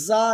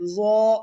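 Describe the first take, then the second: First: The letter is said with a light, thin vowel. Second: The letter is said with a heavy, full vowel. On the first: The speaker calls it wrong. "ज़ा नहीं कहेंगे" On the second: The speaker calls it right. "बल्कि ज़ो यूँ पढ़ेंगे"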